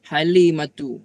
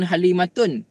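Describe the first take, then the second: First: The name ends with a vowel. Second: The name ends with an n sound. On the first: The speaker calls it right. "jangan bagi tanwin" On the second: The speaker calls it wrong. "bukan Halimatun"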